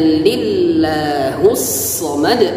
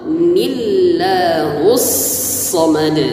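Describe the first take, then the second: First: It starts directly with an l sound. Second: A short n sound comes before the l. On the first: The speaker calls it wrong. "jangan lillahus samad" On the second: The speaker calls it right. "tapi ni, ada nun kecil, nun wasal"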